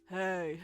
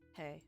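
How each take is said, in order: First: It is said in an imitated character voice. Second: It is said in the speaker's ordinary voice. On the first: "Miles Morales voice, actually" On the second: "So I'm just gonna do a regular voice"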